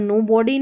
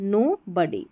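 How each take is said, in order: First: No body with a full "o" in body; mistaken "no-bodee" reading. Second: No body with body said as "buddy"; correct "no-buddy" pronunciation. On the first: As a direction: misread no body with body as "bodi". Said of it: "यहाँ पर no body नहीं". (no body को "नो बॉडी" बोलें) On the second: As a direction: reduce the vowel of body in no body to "uh". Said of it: "यहाँ पर बड़ी पढ़ना है". (no body को "नो बडी" बोलें) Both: Shown as a demonstration.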